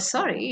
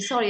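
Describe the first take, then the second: First: The pitch falls sharply on the word. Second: The pitch stays level and neutral. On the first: The opposite of an apology. "a sharp falling tone" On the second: A normal apology. "a n- neutral tone and a normal apology"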